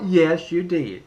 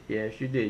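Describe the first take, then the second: First: Said in the usual way. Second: Muttered retort. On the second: Acted. Vlogger repeats his retort to voters lower and softer.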